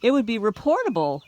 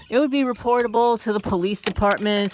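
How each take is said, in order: First: Said in the usual way. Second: Would pressed a touch louder; insisting reportable, would stressed. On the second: Real, not acted. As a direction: lean on the word would as you repeat it.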